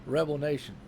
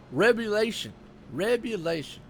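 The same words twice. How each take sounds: First: 'Rebel Nation' as two clear words, REB-el NAY-shun; corrected name. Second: 'Rebulation' said as reb-yoo-LAY-shun, two words run into one; misread name. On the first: Commentator corrects himself, 'Rebel Nation' said clearly. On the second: Commentator misreads the sponsor name, 'Rebulation' blurred into one word. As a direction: garble it into 'Rebulation', stress on LAY. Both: Real, not acted. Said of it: "Actually, it should be".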